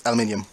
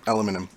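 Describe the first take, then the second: First: "Aluminium" said al-yoo-MIN-ee-um; British pronunciation. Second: "aluminum" said a-LOO-mi-num; American pronunciation. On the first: Game master restates the material, "Aluminium" in five British syllables. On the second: Game master names the see-through material, "aluminum" in four American syllables. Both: Shown as a demonstration.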